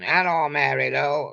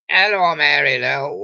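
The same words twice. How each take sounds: First: Said in the usual way. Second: Louder, calling across the street; mock shout. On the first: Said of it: "He was shouting". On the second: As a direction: hail her from the bus stop, half-playful.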